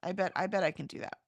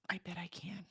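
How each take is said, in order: First: Said in the usual way. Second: A breathy whisper, as if to herself. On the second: Real, not acted. Reassuring herself about the walk, in a whisper. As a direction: whisper the promise under her breath.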